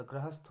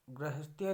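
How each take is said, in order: First: Said in the usual way. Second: गृहस्थ्य said 'grihas-thya'; extra 'ya' ending. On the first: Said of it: "होता है". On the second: Shown as a demonstration. Teacher rejecting a wrong form, गृहस्थ्य ending in 'thya'. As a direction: add a 'ya' to the end of गृहस्थ्य. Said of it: "नहीं होता".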